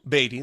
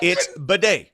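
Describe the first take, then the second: First: The name sounds like 'Beatty', ending in -ty. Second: The name sounds like 'bidet', ending in -day. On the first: This is the older way the name was said. "last year it was Beatty" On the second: This is the current way the name is said. "This year it's bidet"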